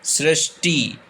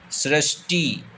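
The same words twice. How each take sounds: The two takes are said the same way.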